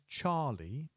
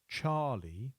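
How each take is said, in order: Both takes have the same delivery.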